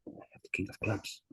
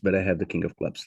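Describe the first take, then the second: First: It is spoken in a whisper. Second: It is spoken in a normal voice.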